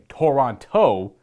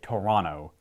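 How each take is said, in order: First: The second T is clearly sounded. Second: The second T is dropped. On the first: "instead of saying Toronto" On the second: "single T's are silent"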